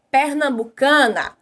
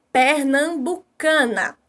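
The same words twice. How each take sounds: First: Said in the usual way. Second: "Pernambucana" slowly, per-nam-bu-ca-na; syllable by syllable. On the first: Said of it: "Exemplo, a palavra". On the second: Shown as a demonstration. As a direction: sound out each syllable of "Pernambucana" for pupils. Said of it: "eu tenho três sons aí".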